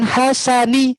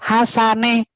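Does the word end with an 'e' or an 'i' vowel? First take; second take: i; e. First: The final vowel is a clear 'i' sound. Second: The final vowel is an 'e' sound. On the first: The speaker calls it right. "membunyikan huruf I" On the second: The speaker calls it wrong. "salah posisi pengucapan hurufnya"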